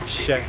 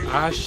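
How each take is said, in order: First: The last vowel is like in 'shed'. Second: The last vowel is not like in 'shed'. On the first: The speaker calls it right. "the actual pronunciation is she, as in uh, something similar to watershed" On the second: The speaker calls it wrong. "in the United States in particular, people will say ashe"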